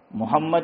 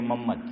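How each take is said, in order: First: محمد in full, "Muhammad", with a clear ha; full correct name. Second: محمد squashed to "Mammad", ha swallowed; Gujarati slurred name. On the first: Shown as a demonstration. Cleric giving the Prophet's name properly, fully articulated. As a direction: say all three syllables of محمد carefully. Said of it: "نبی کا نام صحیح نہیں لیتے". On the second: Retold or imitated. Cleric mimicking Gujaratis mispronouncing the name, slurred to "Mammad". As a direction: clip محمد down to two syllables, "Mammad". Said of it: "ہم گجراتی لوگ نبی کا نام صحیح نہیں لیتے".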